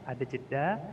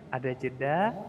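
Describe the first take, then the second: Both takes have the same delivery.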